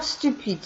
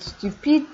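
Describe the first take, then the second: First: Said in the usual way. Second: Stupide repeated higher with a rising end. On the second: Shown as a demonstration. Teacher repeating stupide higher for students to copy. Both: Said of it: "teacher models each adjective twice".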